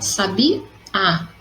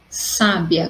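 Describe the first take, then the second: First: The stress is on the final syllable. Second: The stress is on the first syllable. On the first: It names a kind of bird. "a minha sílaba mais forte é no último a" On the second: Someone is wise. "com acento no sa"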